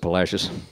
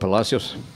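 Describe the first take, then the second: First: The name is said with anglicized vowels. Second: The name is said with Spanish-style vowels. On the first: This is how locals say it today. "the modern day Texans pronounce it Palacios" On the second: This is what the town was once called. "at one time may have been called Palacios"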